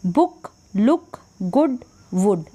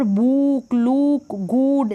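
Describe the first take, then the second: First: "बुक, लुक, गुड, वुड" with short clipped u. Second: "बुक, लुक, गुड" with oo stretched, as book, look, good with a long vowel; wrong long oo. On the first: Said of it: "छोटा उच्चारण ऊ का". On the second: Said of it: "गलत हो जाएगा". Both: Shown as a demonstration.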